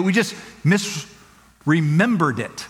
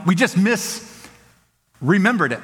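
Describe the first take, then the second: First: Slow, with weight on "just"; slow and emphatic. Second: Slow again, "just" leaned on; same slow weight; slow and emphatic. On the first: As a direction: drag it out slowly. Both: Shown as a demonstration. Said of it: "emphatic repetition".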